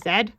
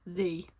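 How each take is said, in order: First: The letter is said the British way, 'zed'. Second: The letter is said the American way, 'zee'.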